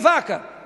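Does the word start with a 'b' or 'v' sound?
v. The word starts with a 'v' sound. This is the word someone is asked to say. "diga vaca"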